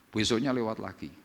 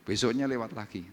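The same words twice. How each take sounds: The two takes are said the same way.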